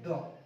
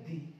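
First: 'The' is said with a short 'uh' vowel. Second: 'The' is said with a long 'ee' vowel. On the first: "एक तो हम लोग इसको पढ़ते हैं द" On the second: "एक हम लोग इसको पढ़ते हैं दी"

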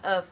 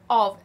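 First: The word is said in its weak, reduced form. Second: The word is said in its full, stressed form. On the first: "如果佢唔係 stressed ... 我哋會讀成 of" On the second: "當佢係 stressed 嘅時候，我哋會讀 of"

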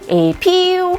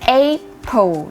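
First: The stress is on the second syllable. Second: The stress is on the first syllable. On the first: The speaker calls it wrong. "ไม่ใช่เน้นพยางค์ที่2 แบบ April ไม่เอานะคะ" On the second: The speaker calls it right. "เน้นที่พยางค์แรก"

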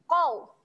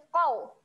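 Both takes have the same delivery.

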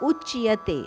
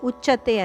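First: The 'ch' is followed by a 'y' glide. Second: The 'ch' is said without a 'y' glide. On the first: The speaker calls it right. "ಚಕೆಯದ ಒತ್ತಿದೆ ಉಚ್ಯತೆ" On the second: The speaker calls it wrong. "ಉಚ್ಯತೆ ಅಲ್ಲ"

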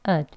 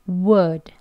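First: The w is dropped, leaving only a short vowel. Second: The w and full vowel are both clearly said. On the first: "이 워 하는 소리도 없죠. 그냥 ud" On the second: "이게 강형이고요"

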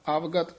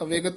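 First: The first vowel is long, with no 'e' sound. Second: The first vowel is short, followed by 'e'. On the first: The speaker calls it right. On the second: The speaker calls it wrong. "ਅਵੇਗਤ ਨਹੀਂ ਕਹਿਣਾ ਹੈ"

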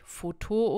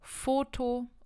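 First: The stress is on the last syllable. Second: The stress is on the first syllable. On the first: The speaker calls it wrong. "und nicht Foto oder so" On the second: The speaker calls it right. "die Betonung liegt wieder auf der vorletzten Silbe"

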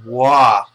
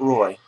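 First: The name is said like 'wah', no r sound. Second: The name is said like 'roy', with an r sound. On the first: The speaker calls it right. "I know how to pronounce that one" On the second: The speaker calls it wrong. "Not Roy"

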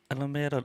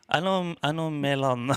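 First: The middle consonant is pronounced as an R. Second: The middle consonant is pronounced as an L. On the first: The speaker calls it right. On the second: The speaker calls it wrong.

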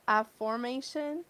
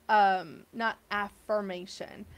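First: The middle syllable sounds like 'form'. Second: The middle syllable sounds like 'firm'. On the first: The word is meant to carry the sense of forming. "She wants this to form for you" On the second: The word carries its ordinary sense. "not affirmation"

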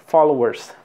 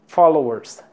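Both takes have the same delivery.

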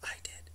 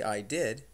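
First: It is said in a whisper. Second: It is said in a normal voice.

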